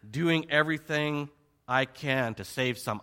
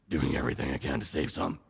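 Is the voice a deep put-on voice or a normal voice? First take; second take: normal; deep put-on. First: It is said in the speaker's normal voice. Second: It is said in a deep, gravelly put-on voice.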